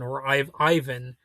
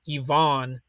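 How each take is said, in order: First: The name has an Americanized pronunciation. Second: The name has a Russian-style pronunciation.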